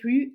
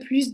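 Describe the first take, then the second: First: The final s is pronounced as z. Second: The final s is pronounced as s. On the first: "on va prononcer le son Z" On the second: "on prononce le S de plus"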